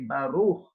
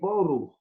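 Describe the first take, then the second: First: The first vowel is an 'a' sound. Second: The first vowel is an 'o' sound. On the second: "We say Boruch"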